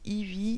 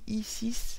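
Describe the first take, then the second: First: The name is said as one word, 'ivy'. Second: The name is said as 'i' plus 'six'. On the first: "si c'est Eevee"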